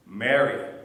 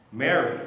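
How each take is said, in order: First: Louder, lower and falling, a knowing call; calling her name. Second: A louder call of Mary's name, rising; calling her name. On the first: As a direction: say her name so she finally knows you. Jesus calls, she finally recognizes. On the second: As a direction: call her once more, gently. Jesus calls her again. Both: Acted.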